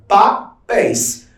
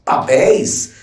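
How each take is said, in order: First: Papéis split slowly as pa-PÉIS, higher; syllables separated. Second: Said in the usual way. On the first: Shown as a demonstration. Teacher showing a two-syllable word, Papéis split in syllables. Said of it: "se eu separo, eu tenho um termo dissílabo". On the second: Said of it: "se eu separo".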